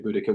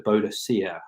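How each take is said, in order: First: The name is said with three syllables. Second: The name is said with five syllables. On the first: This is the Celtic form of the name. The speaker calls it right. "which is the Celtic pronunciation" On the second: This is the Roman form of the name. The speaker calls it wrong. "which is the Roman pronunciation"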